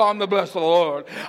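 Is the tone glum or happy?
glum. It is said in a glum, flat way.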